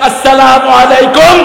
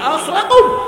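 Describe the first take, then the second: First: The greeting is said fully, every syllable clear. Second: The greeting is clipped, with syllables run together. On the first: It is a proper greeting of peace. The speaker calls it right. "ইমাম সালাম শিক্ষা দেয়" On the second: The words end up meaning a curse, not a greeting of peace. The speaker calls it wrong. "সালামই সহি না"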